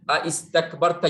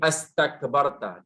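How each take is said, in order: First: It begins with two vowels in sequence. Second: It begins with a single vowel.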